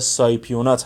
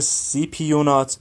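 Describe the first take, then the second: First: The first syllable is pronounced like 'sigh'. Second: The first syllable is pronounced like 'see'. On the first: This is the common gym pronunciation of the name. The speaker calls it wrong. "به اصطلاح که حالا داخل عرف و باشگاه ها رواج داره" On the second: This is the proper pronunciation of the name. The speaker calls it right. "تلفظ درست سیپیونات هست"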